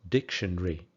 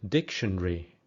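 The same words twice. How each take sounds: First: It is said with fewer, shortened syllables. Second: The same.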